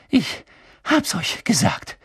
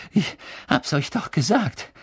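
First: High, slow panting between words; gasping. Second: Winded and higher, stressing the repeat; gasping, insistent. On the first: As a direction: gasp it out in bursts, winded. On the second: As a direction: pant it out, rising on gesagt. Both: A narrator's reading. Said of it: "keuchte Hermine".

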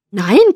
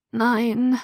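First: Loud, indignant NEIN; protesting. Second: Feeble, groaning NEIN; moaned.

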